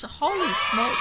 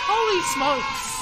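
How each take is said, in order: First: Quick shout of surprise at Holy smokes; sudden "Holy smokes" shouted; surprised exclaim. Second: Slower, higher "Holy smokes" stretched out in awe; amazed "Holy smokes" called slowly; drawn-out amazement. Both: Real, not acted.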